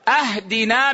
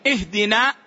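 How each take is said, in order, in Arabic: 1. تبدأ الكلمة بصوت 'ah' حنجري. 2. تبدأ الكلمة بصوت 'ih'. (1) "أهدنا من الهدية" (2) "بدلا من أن يقول اهدنا الصراط المستقيم"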